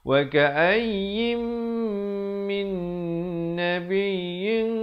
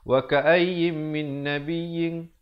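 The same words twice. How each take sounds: First: The nasal sounds are held for two beats. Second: The nasal sounds are cut short. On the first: The speaker calls it right. "Yang betulnya" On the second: The speaker calls it wrong. "Ramai yang tidak disiplin, dia langgar"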